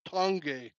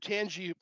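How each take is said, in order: First: The name ends with an 'ay' sound. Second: The name ends with an 'ee' sound. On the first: The speaker calls it right. "it's called Tangay" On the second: The speaker calls it wrong. "I always thought that Tangay was pronounced Tangy"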